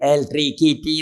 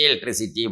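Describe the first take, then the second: First: The third syllable has a k sound. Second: The third syllable has an s sound. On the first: The speaker calls it wrong. "ഈ ചെക്കൻ എന്ത് പറഞ്ഞാൽ ഇലക്ട്രിക്കിറ്റി ഇലക്ട്രിക്കിറ്റി എന്നേ പറയില്ല" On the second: The speaker calls it right. "Teacher science പഠിപ്പിക്കുമ്പോൾ ഇലക്ട്രിസിറ്റി ഇലക്ട്രിസിറ്റി ഇലക്ട്രിസിറ്റി പറയും"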